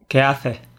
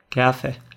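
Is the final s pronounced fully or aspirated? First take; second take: aspirated; aspirated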